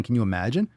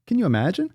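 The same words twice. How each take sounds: First: Rising, half-serious wonder; mild mock disbelief. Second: Higher, louder incredulous squeal on you; mock disbelief, higher. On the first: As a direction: ask it lightly, only half amazed. First take, mild. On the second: Second take, much higher.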